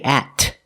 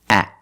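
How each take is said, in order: First: The final T is released with a puff. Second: The final T is stopped, not released. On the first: The speaker calls it wrong. "We don't say at. We don't release the T" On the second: The speaker calls it right. "we do a stop T"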